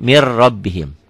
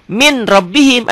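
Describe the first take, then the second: First: "mir rabbihim" with a doubled R and no N; read, N merged. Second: High "min rabbihim" with the N sounded; written, with N. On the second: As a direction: punch out the N of "min". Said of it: "ada N-nya". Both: Shown as a demonstration.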